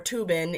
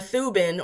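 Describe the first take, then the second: First: The name begins with a plain T sound. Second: The name begins with a TH sound.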